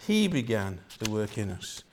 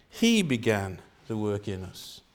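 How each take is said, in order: Both takes have the same delivery.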